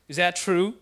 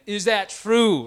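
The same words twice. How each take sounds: First: Louder, lightly imitated dad questioning his son; stern dad. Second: Loud, slow, drawn-out demand, imitating a big dad; booming dad voice. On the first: Dad confronting his son about disrespect, lightly voiced stern question. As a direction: put the question to him firmly, as the dad. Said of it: "so he looked at him". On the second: Dad looks at his son again, imitated booming voice. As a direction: boom it out higher and slower, like an angry father. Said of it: "booming voice".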